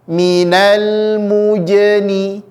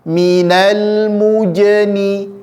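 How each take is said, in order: Both takes have the same delivery.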